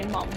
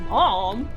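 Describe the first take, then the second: First: The word has an Australian vowel. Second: The word has an American vowel and sassy tone. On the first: It is a normal, respectful way to address one's mother. "As Australians, we say mum" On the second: It sounds disrespectful, like an angsty teen. "if you say mom, oh, dude, that's so disrespectful"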